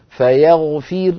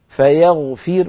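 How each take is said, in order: Both takes have the same delivery.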